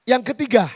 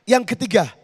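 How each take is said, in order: The two takes are said the same way.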